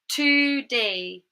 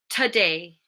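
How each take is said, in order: First: The first syllable has a full, unreduced vowel. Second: The first syllable has a reduced schwa vowel. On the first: The speaker calls it wrong. "I didn't say that in a natural way" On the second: The speaker calls it right. "how an English speaker would say it"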